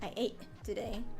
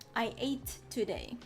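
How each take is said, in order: First: The T in ate is a glottal stop. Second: The T in ate is clearly released. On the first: "the glottal T" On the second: "I emphasized the T when I said I ate today"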